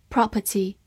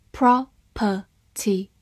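First: Said in the usual way. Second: "property" slowly in three separate pieces; syllable by syllable. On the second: Shown as a demonstration. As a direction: break "property" into pro, per, ty. (把"property"分成三个音节慢读) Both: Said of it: "P R O发pro".

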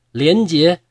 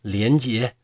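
First: Second “莲姐” called out louder and higher. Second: Said in the usual way. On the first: A narrator's reading. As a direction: call out her name as the recognition hits. (提高声音大喊“莲姐”) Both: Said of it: "大声喊".

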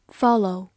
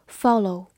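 No difference in how they are said.

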